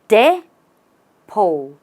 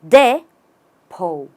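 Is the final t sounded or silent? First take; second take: silent; silent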